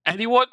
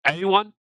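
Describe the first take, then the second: First: Pitched higher with a rising, incredulous lilt; more insistent prompt. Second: A pointed question to chat, slightly raised; impatient prompt. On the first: Streamer repeating the unanswered question, more insistent and higher. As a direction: ask again, pushing harder for a reply. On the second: Streamer pressing chat for a math answer, impatient prompt. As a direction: call out to a silent chat, expecting an answer. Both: Real, not acted.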